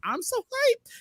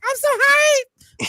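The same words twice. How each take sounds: First: It is said in his normal voice. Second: It is said in a put-on voice.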